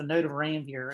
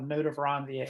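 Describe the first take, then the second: First: Ranvier is said in a local Southern way. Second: Ranvier is said in the formal, technical way. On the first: "if you're from this area uh, around South Carolina" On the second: "technically, if you want to pronounce it"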